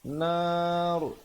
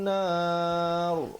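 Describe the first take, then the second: Both takes have the same delivery.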